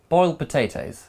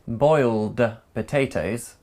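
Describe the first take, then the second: First: The D at the end of boiled is dropped. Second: The D at the end of boiled is pronounced.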